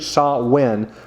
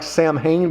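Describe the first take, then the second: First: The middle is said with a w sound. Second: The middle is said with an m-h sound. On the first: It is the actual pronunciation. The speaker calls it right. "but it's actually Sa-Wen" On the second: It is read the way it is spelled. The speaker calls it wrong. "when you see the pronunciation, it looks like Samhain"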